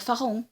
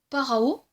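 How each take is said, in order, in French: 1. Le mot commence par un son f. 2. Le mot commence par un son p. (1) "ou fa" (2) "la lettre P en hébreu"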